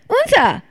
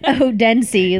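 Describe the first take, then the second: First: The name is said with the local pronunciation. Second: The name is said with an American pronunciation. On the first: The speaker calls it right. "And they go" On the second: The speaker calls it wrong. "like the like dumb ass American that I am"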